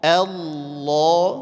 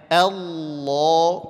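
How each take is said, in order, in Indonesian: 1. Vokal pertama tipis, bibir tersenyum. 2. Vokal pertama tipis, bibir tersenyum.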